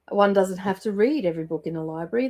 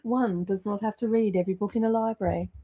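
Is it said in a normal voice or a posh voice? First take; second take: normal; posh. First: It is said in her normal voice. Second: It is said in a posh voice.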